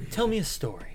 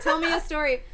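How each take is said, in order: First: Borrowing a friend's catchphrase; quoting Dan. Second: Repeating a friend's catchphrase; quoting Dan. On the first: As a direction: say it like a favorite catchphrase. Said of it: "borrowing a Danism". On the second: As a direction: say it like a borrowed line. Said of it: "that is a Danism". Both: Retold or imitated.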